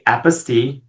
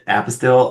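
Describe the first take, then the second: First: It is said the French way, ending like 'steel'. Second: It is said with an English 'apostle' sound. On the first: The speaker calls it right. "It's actually apostille" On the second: The speaker calls it wrong. "I do pronounce it apostille often uh, by mistake"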